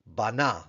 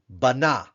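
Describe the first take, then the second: First: Said in the usual way. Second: "Bana," higher and louder, falling; Hebrew bana. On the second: Shown as a demonstration. Teacher models the verb for students, louder. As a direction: sound out "Bana," clearly. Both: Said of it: "we'll spell it and read it".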